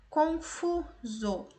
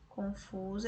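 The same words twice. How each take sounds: First: Confuso very slow and higher, broken into syllables, strong "fu"; stress on penultimate syllable. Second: Said in the usual way. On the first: Shown as a demonstration. Teacher sounding out a word for students, slow stress on "fu" in Confuso. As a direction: stretch Confuso out, leaning on FU. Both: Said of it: "a penúltima sílaba é mais forte".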